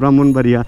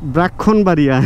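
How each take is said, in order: First: It is said with its usual spoken sounds. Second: Each written letter is sounded out as spelled. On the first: "বলতে হবে" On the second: "বানান দেখা যাবে"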